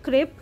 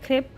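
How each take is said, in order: The two takes are said the same way.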